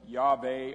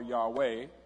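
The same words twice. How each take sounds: First: The middle consonant is a V sound. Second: The middle consonant is a W sound. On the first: "it could be V or W" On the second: "it could be V or W"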